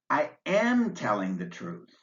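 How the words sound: The word am is full and emphasized. "you'd give am special emphasis"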